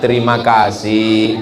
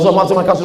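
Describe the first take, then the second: First: The phrase is said slowly and calmly. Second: The phrase is said very fast. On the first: The speaker calls it right. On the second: The speaker calls it wrong.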